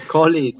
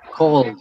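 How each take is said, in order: First: The ending is an extra syllable. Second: The ending is a single sound. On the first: The speaker calls it wrong. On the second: The speaker calls it right.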